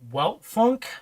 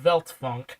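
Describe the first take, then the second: First: The name begins with a W sound. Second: The name begins with a V sound. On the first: The speaker calls it wrong. "some people would pronounce it" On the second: The speaker calls it right. "it's actually Veltfunk, ... the W's are pronounced like American V's"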